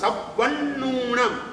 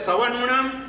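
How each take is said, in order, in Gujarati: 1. b અને n બંને બેવડા છે. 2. b કે n, બેમાંથી કોઈ બેવડો નથી. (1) "ડબલ વ ડબલ ન અને ઉ દીર્ઘ એ રીતે બોલવાનું" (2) "કોઈ વ ને ન બંને ઓછા બોલે"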